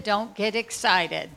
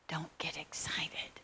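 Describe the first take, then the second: First: Said in the usual way. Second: Slow hushed whisper at the door; slow secret whisper. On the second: Retold or imitated. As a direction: breathe it, no voice.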